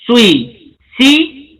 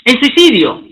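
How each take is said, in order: First: Suicidio drawn out very slowly, syllable by syllable; syllabified. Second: Said in the usual way. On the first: Shown as a demonstration. Teacher splitting a word for students, very slow. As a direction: stretch suicidio into separate syllables. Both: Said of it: "el silabeo".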